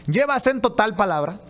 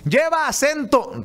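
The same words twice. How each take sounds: First: Said in the usual way. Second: "Lleva acento" called out higher and slow, stretching "lleva"; hammed-up yell of "Lleva acento" across the studio; mock shout. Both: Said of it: "ha gritado Vicente Serrano".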